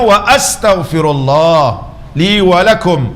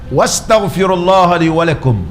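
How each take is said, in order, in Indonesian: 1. Bunyi hamzah memisahkan wa dari astaghfirullah. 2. Wa langsung menyambung ke astaghfirullah tanpa jeda. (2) "Tak betul"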